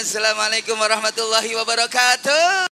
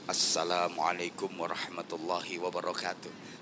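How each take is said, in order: First: It is said in a showy, stage-entertainer style. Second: It is said in a calm, formal speech style. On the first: It sounds like a pop concert opening. The speaker calls it wrong. "salam saya pakai gayanya penyanyi" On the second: It opens a religious speech properly. The speaker calls it right. "Saya kalau mau pidato salamnya ya kayak tadi"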